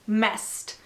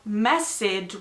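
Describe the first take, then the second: First: The word is said as one syllable, 'mest'. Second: The word is said with two syllables, mess-ed. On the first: The speaker calls it right. "You don't pronounce the E. It's messed" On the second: The speaker calls it wrong. "The pronunciation is not messed with"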